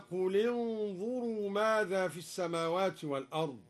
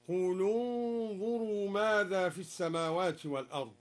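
First: Said in the usual way. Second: "قل انظروا" linked as qulu-nzuru; damma on the lam. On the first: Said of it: "قرأ الدوري بضم أولى الساكنين". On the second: Shown as a demonstration. Teacher showing al-Duri's reading, "قل انظروا" as qulu-nzuru. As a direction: recite "قل" with an added u on the l. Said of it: "بضم أولى الساكنين وهو اللام هكذا".

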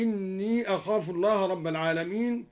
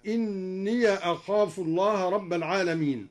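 First: Said in the usual way. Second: "إني" recited as inniya, linked into "أخاف"; opened ya. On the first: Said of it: "فتح الياء وصلا". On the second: Shown as a demonstration. Reciter showing al-Duri's linking, fatha on the ya of "إني". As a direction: add a short a after the ya of "إني". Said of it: "فتح الياء وصلا هكذا".

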